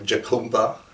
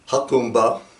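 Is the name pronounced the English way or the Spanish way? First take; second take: English; Spanish. First: The name is read as it is spelled. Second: The name is pronounced the Spanish way. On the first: "like it looks like" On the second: "maybe they think it's Spanish"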